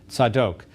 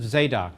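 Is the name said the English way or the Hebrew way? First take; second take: Hebrew; English. First: The name is said with a Hebrew pronunciation. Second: The name is said with an English pronunciation.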